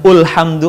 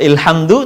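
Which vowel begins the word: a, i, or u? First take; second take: u; i. First: The word begins with an u vowel. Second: The word begins with an i vowel. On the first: "bukan ulhamdu" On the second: "atau ilhamdu"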